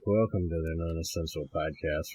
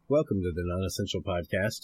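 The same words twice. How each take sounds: First: It is said in a droopy-dog voice. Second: It is said in his normal voice.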